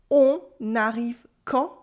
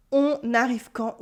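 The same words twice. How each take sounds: First: On arrive quand, rising at the end on quand; voice going up. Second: Said in the usual way. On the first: Shown as a demonstration. French teacher models spoken question, voice going up on quand. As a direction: lift the pitch on quand as a question. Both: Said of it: "with my voice going up".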